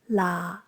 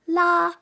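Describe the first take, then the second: First: The pitch stays low and level. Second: The pitch stays high and level. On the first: "Low-pitched stays at the same pitch" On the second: "tones one"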